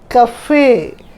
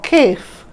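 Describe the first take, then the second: First: It is two syllables with a pronounced final e. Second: It is one syllable with a silent final e. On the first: The speaker calls it right. "You pronounce it as cafe" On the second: The speaker calls it wrong. "or caf"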